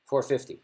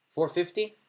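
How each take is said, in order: First: "Four fifty." said flat, like a plain statement. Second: "Four fifty," rising up like a question; rising question tune. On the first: Demoing the confident bet, flat statement. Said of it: "Notice the difference?". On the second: Demoing the bluffer's bet, rising question tune. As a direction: ask "Four fifty," with pitch going up at the end. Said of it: "the four fifty is a bluff". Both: Shown as a demonstration.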